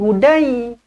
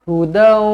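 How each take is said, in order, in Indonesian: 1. Kata ini berakhir dengan bunyi 'ai'. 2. Kata ini berakhir dengan bunyi 'aw' yang membulat. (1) "jangan pula kita baca dekat sini ya ni hudai" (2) "muncungkan bibir, dengungkan dua harakat"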